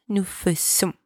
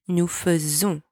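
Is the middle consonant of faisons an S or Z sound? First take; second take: S; Z. First: The middle consonant sounds like a hard S. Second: The middle consonant sounds like a Z. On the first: The speaker calls it wrong. "and not nous faisons. There's only one S here, not two" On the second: The speaker calls it right. "make sure you say nous faisons ... It sounds like a Z"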